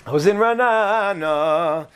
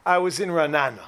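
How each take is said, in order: First: Ra'anana stretched out long and slow; slow it down, lingering on the vowels of Ra'anana; drawn-out repeat. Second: Said in the usual way. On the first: Real, not acted. Repeats place name, stretching it out.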